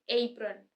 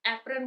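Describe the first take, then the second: First: एप्रन as AY-prun; "ay" opening. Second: एप्रन opening on a short "e"; everyday Indian pronunciation. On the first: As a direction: open एप्रन on a long gliding "ay". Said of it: "ए से start होता है". (एप्रन को एइ-प्रन) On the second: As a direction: say एप्रन as EP-run. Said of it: "जैसे एप्रन बोलते हैं हम". (एप्रन, आम भारतीय उच्चारण) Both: Shown as a demonstration.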